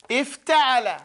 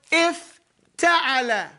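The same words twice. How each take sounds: First: Said in the usual way. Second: "ifta'ala" drawn out slowly, each syllable clear; slow scale word. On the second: Shown as a demonstration. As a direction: stretch "ifta'ala" out slowly for students. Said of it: "we put a word".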